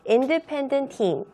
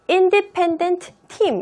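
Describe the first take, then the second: First: The final t of independent is dropped. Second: The final t of independent is clearly pronounced. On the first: The speaker calls it right. "앞에 나와 있는 자음의 발음은 잘 하지 않습니다" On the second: The speaker calls it wrong. "제가 읽을 때 independent team 이렇게 읽었어요? 아니에요"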